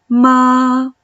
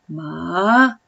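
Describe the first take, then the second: First: The pitch stays level and steady. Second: The pitch climbs upward. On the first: "el primer tono, es un tono sostenido, recto" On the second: "El segundo tono es como si subieras una escalera"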